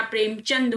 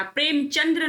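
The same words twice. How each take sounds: First: प्रेमचंद ending in plain "d"; "prem-chand" for प्रेमचंद; correct ending. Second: प्रेमचंद्र ending in "-dra"; "prem-chandra" for प्रेमचंद्र; wrong ending. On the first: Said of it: "प्रेमचंद होता है". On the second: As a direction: add an r to the end of प्रेमचंद्र. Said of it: "प्रेमचंद्र नहीं होता". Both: Shown as a demonstration.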